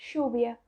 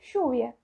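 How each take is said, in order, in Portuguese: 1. É falado com sotaque argentino. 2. É falado com sotaque argentino.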